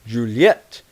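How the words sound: The name is said with a French pronunciation. "The French pronunciation is"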